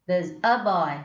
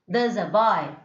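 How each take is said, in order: First: The article 'a' gets a weak, reduced vowel. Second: The same.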